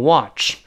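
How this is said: It is said with an American accent. "美音口型变大，读成watch"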